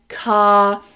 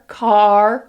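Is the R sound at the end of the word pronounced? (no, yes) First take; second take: no; yes. First: The final R is silent. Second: The final R is pronounced strongly. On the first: "we don't pronounce the R" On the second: "They say that er very strongly"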